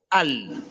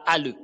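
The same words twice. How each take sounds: First: Al ending on a held L with no vowel after; correct closed L. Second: Al with a small extra vowel after the L, "a-le"; wrong released L. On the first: Teacher correcting learners, L held closed. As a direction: hold the L of al and let it fade. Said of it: "mais c'est al". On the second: Teacher showing learners the mistake, L released into a vowel. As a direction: let the L of al bounce into a schwa. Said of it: "On ne dit pas al". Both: Shown as a demonstration.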